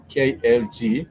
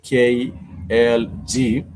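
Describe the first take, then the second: First: Said in the usual way. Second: K L G spelled out very slowly, letter by letter; K L G spelled out slowly and a bit louder. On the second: Shown as a demonstration. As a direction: drag each letter out like a bad example.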